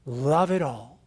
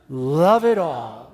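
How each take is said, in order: First: Said in the usual way. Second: 慢慢地说"Love it all"，重音在it上; slowly, leaning on "it" in Love it all; slow gesture phrase. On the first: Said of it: "the gesture for love it all is just simply this". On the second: Shown as a demonstration. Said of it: "I want you to do that with me".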